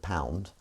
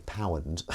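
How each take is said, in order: First: Said in the usual way. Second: "pound" said the Dudley way; local pronunciation. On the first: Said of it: "instead of pound". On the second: Shown as a demonstration. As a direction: say "pound" as locals there reportedly do. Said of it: "Someone said that they say pound".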